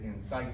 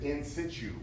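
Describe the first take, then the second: First: Situ does not sound like 'situation'. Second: Situ sounds like the start of 'situation'.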